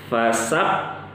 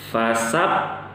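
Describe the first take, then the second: The two takes are said the same way.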